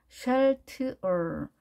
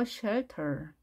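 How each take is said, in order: First: Shelter in slow separate sounds; piece-by-piece shelter; sounded out. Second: Shelter as one softer word; quiet, blended shelter; joined-up pronunciation. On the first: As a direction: break shelter into shel, t, er. Teacher sounds word out in pieces. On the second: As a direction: run shelter together, stress on shel. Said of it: "이렇게 발음되겠죠". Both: Shown as a demonstration.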